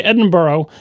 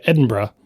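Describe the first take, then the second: First: Edinburgh with "burrow" ending; American mispronunciation. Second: Edinburgh as "Edin-bruh"; accepted pronunciation. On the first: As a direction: finish Edinburgh on a full "oh". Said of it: "I can't, we can't say". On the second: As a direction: shorten the end of Edinburgh to "bruh". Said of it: "so we'll say". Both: Shown as a demonstration.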